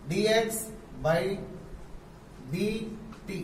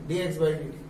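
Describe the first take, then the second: First: Symbol by symbol with pauses; teacher spelling out d x by d t; slow spelled-out reading. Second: Said in the usual way. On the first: Shown as a demonstration. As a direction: dictate it slowly. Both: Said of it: "ऐसे पढ़ेंगे".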